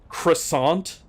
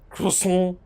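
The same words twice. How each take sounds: First: The word has an American English pronunciation. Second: The word has a French-style pronunciation. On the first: This is how Americans say it. "not croissant" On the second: This is claimed to be the correct pronunciation. "it is pronounced croissant"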